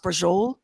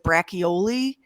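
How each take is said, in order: First: It is said clipped, with the final vowel dropped. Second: It is said with every spelled syllable and final vowel. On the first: The speaker calls it right. "but it's pronounced brajol" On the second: The speaker calls it wrong. "It looks like braccioli"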